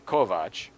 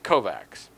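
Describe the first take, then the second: First: The name ends with a 'ch' sound. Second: The name ends with a 'ks' sound. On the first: The person saying it knows him. The speaker calls it right. "people who know him say Kovach" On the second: The person saying it does not know him. The speaker calls it wrong. "people who don't know him say Kovacs"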